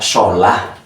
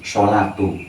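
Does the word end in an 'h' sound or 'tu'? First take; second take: h; tu. First: The word ends with a soft 'h' sound. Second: The word ends with a 'tu' sound. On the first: The speaker stops after the word. "Bisa dibaca sholah" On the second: The speaker runs on into the next word. "kalau sholat itu bablas"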